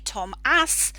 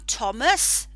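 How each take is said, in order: First: The second vowel is a full 'a' sound. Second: The second vowel is a reduced schwa. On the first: The speaker calls it wrong. "we don't say Tom ass" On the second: The speaker calls it right. "the A as the representation for the schwa"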